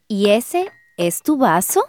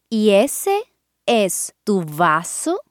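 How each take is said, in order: First: It is said at normal speed. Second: It is said slowly.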